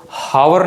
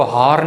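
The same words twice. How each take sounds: First: "हावर" with the h wrongly voiced, ending in "-वर"; sounded H. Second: "हार" with an audible h and a long aa, no w; sounded H, shortened. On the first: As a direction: say "हावर" in two syllables with an audible h. ("हावर" में ह बोलकर, दो हिस्सों में) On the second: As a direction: say "हार" as one syllable starting on h. ("हार" में ह बोलकर, एक ही हिस्से में) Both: Shown as a demonstration. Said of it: "एच जो है वो हा की आवाज़ देता है".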